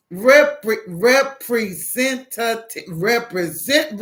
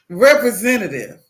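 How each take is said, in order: First: "representative" slowly, syllable by syllable; over-enunciated. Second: Loud call for a human; exasperated demand. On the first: Caller to a phone system that misunderstands, slow and over-enunciated. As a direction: sound out "representative" for a dense listener. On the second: Caller to an automated phone line, loud and exasperated. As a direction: demand it firmly in one go. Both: Retold or imitated.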